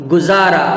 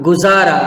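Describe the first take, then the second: The two takes are said the same way.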